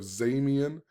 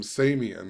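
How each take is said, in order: First: The name begins with a Z sound. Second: The name begins with an S sound. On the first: "instead of Zamian" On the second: "he calls him Samian"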